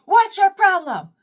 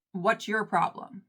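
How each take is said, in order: First: High, loud confrontational yell; hammed-up furious shout; going off. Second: Said in the usual way. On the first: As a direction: demand it at full volume, way up high. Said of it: "I go off, y'all".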